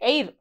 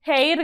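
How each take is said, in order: First: The word starts directly with a vowel sound. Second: The word starts with an audible h sound. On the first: The speaker calls it right. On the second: The speaker calls it wrong.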